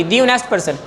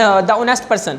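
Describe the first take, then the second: First: "the" said "dee" before "honest"; "the" rhyming with "see", slowly; corrected "dee" for "the". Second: "the" said "da" before "honest"; "the" pronounced duh, slowly; mistaken "da" for "the". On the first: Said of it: "تو ہم اس کو دی پڑھیں گے". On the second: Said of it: "sorry". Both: Shown as a demonstration.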